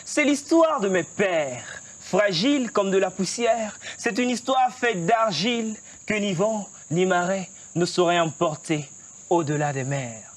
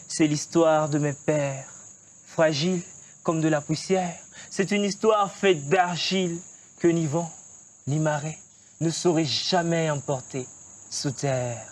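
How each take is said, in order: First: Full stage declamation of the refrain; slam poetry. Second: Slow closing refrain. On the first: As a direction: project the refrain with poetic swing. (refrain de slam déclamé avec force) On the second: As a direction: let the last refrain fade and settle. (refrain final lent, bas et posé) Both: Shown as a demonstration. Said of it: "Tu nous déclames un texte?".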